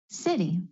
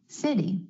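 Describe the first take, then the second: The two takes are said the same way.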